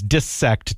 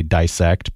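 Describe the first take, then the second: First: Dissect with short i, like "diss"; short first vowel in dissect; dis-sect pronunciation. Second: Dissect with first syllable like "die"; long i in dissect; die-sect pronunciation. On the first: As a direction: say dissect as "dis-SEKT", not rhyming with bisect. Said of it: "does not rhyme with bisect". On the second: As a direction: say dissect as "DIE-sekt", rhyming with bisect. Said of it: "not happy with that pronunciation". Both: Shown as a demonstration.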